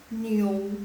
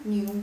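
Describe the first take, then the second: First: "new" drawn out as ni-ou, O audible; correct Mandarin niu. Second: Niu without the O glide; wrong pronunciation. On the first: Teacher models native reading, O heard in the middle. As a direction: stretch "new" slowly with an O in the middle. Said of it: "kedengaran nggak O-nya". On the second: Teacher shows students the mistake, wrong reading of niu. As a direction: say "new" as niu, no O heard. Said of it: "bukan new, tapi new". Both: Shown as a demonstration.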